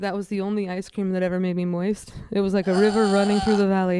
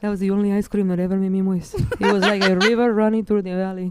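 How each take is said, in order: First: It is said in the speaker's ordinary accent. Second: It is said in a put-on Spanish accent.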